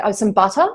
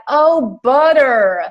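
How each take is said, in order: First: Butter with a crisp T and no final R; butter with its T kept; Australian butter. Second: Put-on butter in an American accent, high and loud; exaggerated American accent on butter; American server's butter. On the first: Retold or imitated. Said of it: "And I said". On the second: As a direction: mimic an American's dawning "oh, butter", D for T. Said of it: "finally she was like".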